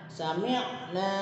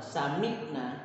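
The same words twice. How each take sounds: First: It has a stressed pharyngeal ain. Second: It has a plain glottal stop. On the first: The speaker calls it right. "di huruf ainnya ada nya, penekanannya" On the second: The speaker calls it wrong. "menggunakan hamzah. Salah"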